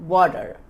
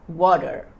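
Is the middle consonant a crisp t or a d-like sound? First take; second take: d-like; d-like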